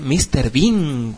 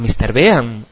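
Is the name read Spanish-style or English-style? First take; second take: English-style; Spanish-style. First: The name is read with English pronunciation. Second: The name is read with Spanish-style pronunciation. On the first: The speaker calls it right. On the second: The speaker calls it wrong.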